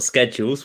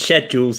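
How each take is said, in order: First: The word is said in an American way. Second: The word is said in a British way. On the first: The speaker calls it wrong. "not schedules. We're not American" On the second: The speaker calls it right. "it's schedules"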